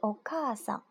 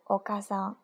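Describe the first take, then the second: First: The vowel after 'ka' is long. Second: The vowel after 'ka' is short. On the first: The speaker calls it right. "里面有一个长音" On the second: The speaker calls it wrong. "不是お母さん"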